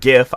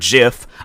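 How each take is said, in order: First: The word begins with a hard G sound. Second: The word begins with a soft J sound. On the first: This is the speaker's own way of saying it. "I say the word GIF. ... You add a T, it will spell out gift" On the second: This is how other people say it. "some people say the word GIF"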